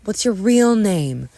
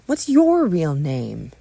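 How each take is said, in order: First: "real" pushed out loud and slow; slow, raised question leaning on "real"; stress on real. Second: "your" punched loud and drawn out; slow question with weight on "your"; stress on your. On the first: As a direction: hit the word "real". Two ask each other's name. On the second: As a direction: throw it back, leaning hard on "your". Question thrown back. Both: Acted.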